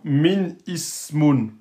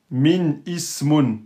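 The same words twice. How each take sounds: First: Min ismun slow, with the i of ismun kept; wrong reading. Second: Min ismun slow, hamza kept after min; wrong reading again. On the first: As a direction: show the forbidden full i. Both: Shown as a demonstration. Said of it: "C'est pas possible".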